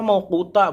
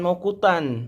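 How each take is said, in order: First: The word ends on a long open vowel. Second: The word ends with an n sound. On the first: The reader pauses at this word. The speaker calls it right. "harus kenapa mauquta" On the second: The reader carries on without pausing. The speaker calls it wrong. "bukan mauqutan"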